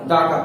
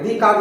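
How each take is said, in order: First: The word 'the' is said with a short 'uh' vowel. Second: The word 'the' is said with a long 'ee' vowel. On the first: The speaker calls it right. "दा car पढ़ेंगे" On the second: The speaker calls it wrong. "दी car नहीं पढ़ा"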